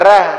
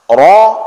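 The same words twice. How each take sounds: First: The r is pronounced light and thin. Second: The r is pronounced heavy and full. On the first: The speaker calls it wrong. "Jangan dibaca ra" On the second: The speaker calls it right. "raru itu tebal bacanya"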